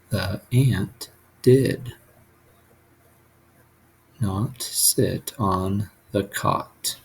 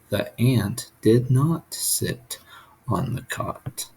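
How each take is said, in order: First: There is a pause after the word did. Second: There is no pause after the word did. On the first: The speaker calls it wrong. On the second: The speaker calls it right.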